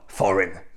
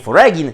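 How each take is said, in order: First: Said with a silent g, like 'forin'. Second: Said with a hard g sound in the middle. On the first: The speaker calls it right. "tylko foreign" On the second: The speaker calls it wrong. "Nie foregin"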